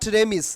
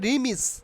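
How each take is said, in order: First: The first vowel sounds like 'eh'. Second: The first vowel sounds like 'ee'. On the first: The speaker calls it wrong. "Not রেমিস" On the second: The speaker calls it right. "উচ্চারণ হবে রিমিস"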